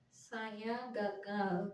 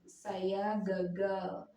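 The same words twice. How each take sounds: First: It is said with a pinched, nasal duck voice. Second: It is said in a normal voice.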